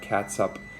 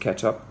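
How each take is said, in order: First: It is pronounced like cat-sup. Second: It is pronounced like ketch-up. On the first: The speaker calls it wrong. "I think I just pronounced that catsup" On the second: The speaker calls it right. "It's ketchup"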